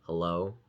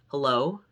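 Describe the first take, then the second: First: It is said in a low, relaxed voice. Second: It is said in a higher, raised voice.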